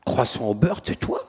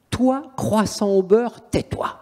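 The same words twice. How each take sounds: First: Said in the usual way. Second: Very slow mocking taunt, ending in a whisper; demon's taunt. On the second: Demon taunting the priest, very slow then whispered. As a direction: drag it out, then breathe the tais-toi. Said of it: "il fait au prêtre".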